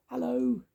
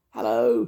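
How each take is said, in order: First: Very high little squeaky hello; mouse squeak. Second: High, loud mouse call; louder squeak. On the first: Sam Squeak greeting Grandma, small high squeak. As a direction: squeak it high, without pushing the volume. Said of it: "he squeaked". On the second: Grandma didn't hear the mouse, louder squeak. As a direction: squeak it out loudly. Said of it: "more loudly". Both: A narrator's reading.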